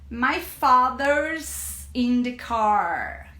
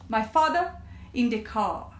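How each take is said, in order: First: The r sounds are pronounced strongly. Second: The r sounds are dropped. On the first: "os americanos, eles falam muito com R" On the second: "Já os britânicos, eles vão tirar esse R"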